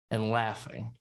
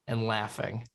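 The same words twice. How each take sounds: The two takes are said the same way.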